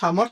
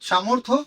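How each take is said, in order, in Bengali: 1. নামটি হিন্দি উচ্চারণে বলা হয়। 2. নামটি বাংলা উচ্চারণে বলা হয়। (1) "হিন্দিতে বা ইংলিশে উচ্চারণ করলে" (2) "বাংলাতে বললে"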